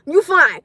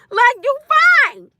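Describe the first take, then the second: First: Said in the usual way. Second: Higher, slow, laughing through You fine; laughing drawn-out you fine. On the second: Real, not acted. Laughing at a panicking partner, slow amused you fine.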